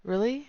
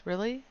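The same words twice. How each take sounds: First: 1 excited surprise. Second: 1 mild surprise. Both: Acted. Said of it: "two takes of really".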